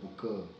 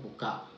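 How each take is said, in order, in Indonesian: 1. Vokal akhirnya adalah schwa. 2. Vokal akhirnya adalah 'a' penuh. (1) "sini sebut buka" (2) "bahasa Melayu Sarawak disebut buka"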